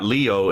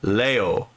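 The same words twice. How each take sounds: First: The first vowel sounds like 'ee'. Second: The first vowel sounds like 'eh'. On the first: The speaker calls it wrong. "it's actually not Leo" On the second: The speaker calls it right. "it's Leo"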